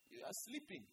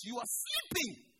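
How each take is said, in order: First: Soft, rising, gently accusing; quiet. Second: Slow, louder rebuke with a falling end. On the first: Preacher to sleepy congregation, softly. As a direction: murmur it like a quiet warning. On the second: Preacher rebuking sleeping church, loud and slow. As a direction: wake them up with it. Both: Shown as a demonstration.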